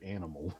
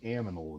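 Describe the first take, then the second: First: The n sound comes before the m sound. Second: The m sound comes before the n sound. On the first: The speaker calls it right. "instead of animal" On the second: The speaker calls it wrong. "saying aminal instead of animal"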